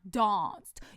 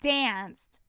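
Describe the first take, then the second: First: It is said in a British accent. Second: It is said in an American accent. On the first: The speaker calls it wrong. "not danced. You are not British" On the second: The speaker calls it right. "The word is pronounced danced"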